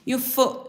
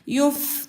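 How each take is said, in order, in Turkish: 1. f sesinden sonra kısa u ünlüsü gelir. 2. f sesi, arkasında ünlü olmadan yumuşakça biter. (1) "yufu gibi okumayacağız" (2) "fa harfine hareket vermeden sakin yumuşak bir sesle"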